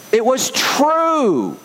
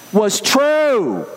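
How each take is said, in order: First: Slow and higher, leaning hard on "true"; emphatic, drawn-out delivery. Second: Said in the usual way. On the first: Shown as a demonstration. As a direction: stretch "It was true" slowly, a few tones up, pressing on "true". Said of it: "Why am I placing such great emphasis on that?". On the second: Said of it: "Why do I say it that way?".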